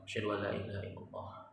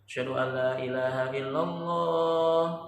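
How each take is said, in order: First: The phrase is said softly and quietly. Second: The phrase is said with a raised voice. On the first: It is said privately before the public call. "tarji' dulu pelan-pelan" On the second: It is proclaimed openly to others. "baru diangkat"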